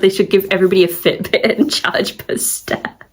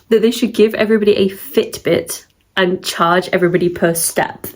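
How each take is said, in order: First: It is said while laughing. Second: It is said with a straight voice.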